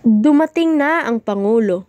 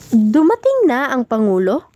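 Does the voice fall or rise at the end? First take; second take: fall; rise. First: The pitch falls at the end. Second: The pitch rises at the end. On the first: It announces that the president has arrived. "Base sa tono ng aking pagbigkas, ito ay nagpapahayag ng pag-anunsyo" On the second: It asks whether the president has arrived. "Base sa tono ng aking pagbigkas, ito ay nagpapahayag ng pagtatanong"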